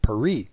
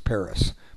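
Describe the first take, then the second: First: It is said with a French pronunciation. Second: It is said with an American English pronunciation. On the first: This is how French people name the city. "if you talk to a Frenchman, his city is called Paris" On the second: This is how Americans name the city. "we in America call the capital of France Paris"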